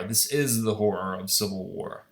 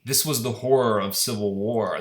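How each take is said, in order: First: "is" leaned on as the key word; low, grave line with weight on "is"; stress on is. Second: Said in the usual way. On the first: Real, not acted. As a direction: stress "is" against the earlier "was". Contrasts past with present.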